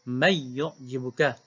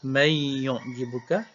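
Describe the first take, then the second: First: The merged n has no nasal hum. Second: The merged n carries a nasal hum. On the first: This is how one particular reader recites it. "Khalaf baca dengan may yu'jibuka idgham tapi tanpa dengung" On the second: This is how most readers recite it. "orang lain baca may yu'jibuka idgham ma'al gunnah"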